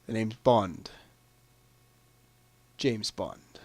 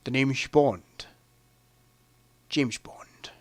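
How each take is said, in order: First: Low, quiet delivery of a film line; iconic catchphrase. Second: Slow, low impression with "Bond" and "James" slurred towards "sh"; Sean Connery. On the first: Acted. Quiz player reading out the famous Bond phrase, low and understated. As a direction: say it low and soft, dropping off at the end. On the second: Showing off a best impression of the film's star, slow and shushing. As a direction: draw it out softly with shushed s sounds. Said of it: "Or as Sean Connery would say".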